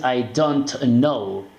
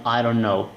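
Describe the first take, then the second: First: Every word apart, full T in "don't", drawn out; stiff, careful "I don't know" with released T; wrong pronunciation. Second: "I don't know" run together, T dropped; fluent pronunciation. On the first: Teacher showing learners what to avoid, over-enunciated "don't". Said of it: "no dices". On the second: Teacher showing learners the fluid way, linked and reduced. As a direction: let "don't know" flow as "dunno". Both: Shown as a demonstration.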